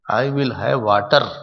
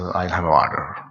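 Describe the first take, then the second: First: It is said in an Indian accent. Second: It is said in an American accent.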